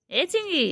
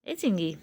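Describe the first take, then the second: First: Calling চিঙ্গি much higher. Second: Said in the usual way. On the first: Real, not acted. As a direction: pitch চিঙ্গি way up like calling a pet. Calling pet bird Chingi again. (উঁচু সুরে চিঙ্গি বলে পোষা পাখিকে ডাকা)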